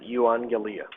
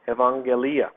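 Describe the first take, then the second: First: The word begins with a 'yoo' sound. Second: The word begins with an 'ev' sound. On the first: "some pronounce it euangelia" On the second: "the word ev"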